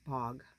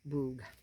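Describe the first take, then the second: First: The vowel is short, as in 'bog'. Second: The vowel is long, as in 'boog'. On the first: The speaker calls it right. "I think it's bog" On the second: The speaker calls it wrong. "not boog"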